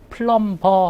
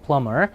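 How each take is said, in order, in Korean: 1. m 뒤에 b 소리가 납니다. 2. m 뒤에 b 소리는 나지 않습니다. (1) "B는 발음이 나지 않습니다. 그러니까 플럼버 하지 마시고" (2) "그냥 플러머"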